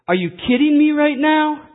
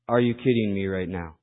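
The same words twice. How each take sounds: First: It is said with strong, exasperated emphasis. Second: It is said plainly, without strong feeling. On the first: The speaker calls it right. "You have to say it, ... That's how you have to pronounce the saying" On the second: The speaker calls it wrong. "You can't just read it, ... You can't say it that way"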